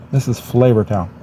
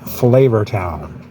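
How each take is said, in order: First: Said in the usual way. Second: Slow drawn-out TV chef catchphrase; Guy Fieri impression. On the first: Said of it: "Guy on Food Network". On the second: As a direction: stretch it out like a food show host. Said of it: "Guy on Food Network, he would refer to this as".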